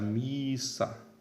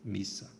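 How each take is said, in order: First: "missa" with the i wrongly drawn out long; vogal longa errada. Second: "missa" with a short i; vogal breve correta. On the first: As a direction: stretch the first vowel of "missa": miiissa. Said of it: "não devemos pronunciar missa". ("missa" com o i alongado, pronúncia errada) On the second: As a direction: keep the first vowel of "missa" brief, not drawn out. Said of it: "A pronúncia continua sendo". ("missa" com i breve, sem alongar) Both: Shown as a demonstration.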